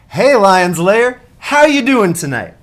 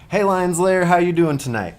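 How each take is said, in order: First: It is said loudly, with more gusto. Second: It is said quietly, with little energy.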